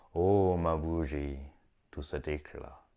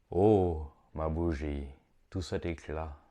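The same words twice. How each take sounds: The two takes are said the same way.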